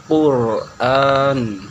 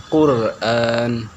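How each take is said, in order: Both takes have the same delivery.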